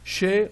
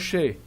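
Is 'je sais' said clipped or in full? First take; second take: clipped; clipped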